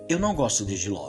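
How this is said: It is said in a calm, relaxed way.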